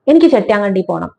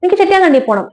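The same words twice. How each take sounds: First: Said in the usual way. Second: എനിക്ക് ചെട്ടിയാങ്കണ്ടി പോണം pitched much higher, pleading and stubborn; insistent grandmother. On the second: Retold or imitated. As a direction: grandmother begging to be taken home, higher. (വാശിയോടെ ഉയർന്ന സ്വരത്തിൽ) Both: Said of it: "അതുവരെ ബഹുമാനത്തോടെ സംസാരിച്ച അമ്മമ്മ".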